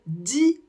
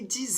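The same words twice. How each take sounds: First: The word ends on the vowel, no consonant. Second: The word ends with a Z sound. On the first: "on ne prononcera pas le X et on va seulement s'arrêter au I" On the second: "prononcer le X comme un Z"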